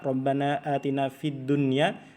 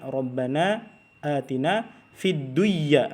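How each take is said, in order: First: The n in dunya is pronounced clearly. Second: The n in dunya is merged into the y. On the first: The speaker calls it right. "kita tidak pernah dengar misalkan orang berdoa" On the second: The speaker calls it wrong. "itu salah bacanya"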